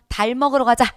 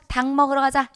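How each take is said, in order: First: The first word ends with an l sound. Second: The first word ends with a k sound. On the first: The speaker calls it wrong. "이러지 않습니다" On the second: The speaker calls it right. "이렇게 된단 말이죠"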